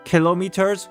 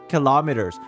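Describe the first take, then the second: First: It is said the original, non-American way. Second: It is said the American English way. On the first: The speaker calls it right. "which is the actual way of actually saying it" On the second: The speaker calls it wrong. "We butcher it"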